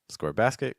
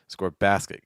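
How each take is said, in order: First: The pitch rises at the end. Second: The pitch falls at the end.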